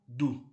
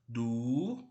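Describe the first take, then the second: First: The vowel is cut short. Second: The vowel is held long.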